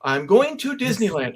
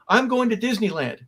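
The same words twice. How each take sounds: First: Second try of the catchphrase, slightly settled; rehearsed line. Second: First run of the rehearsed catchphrase, a bit higher; rehearsed line. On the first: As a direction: repeat it to see if it sounds right. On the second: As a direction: try the line out like a player rehearsing. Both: Retold or imitated. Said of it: "but I'm practicing my lines".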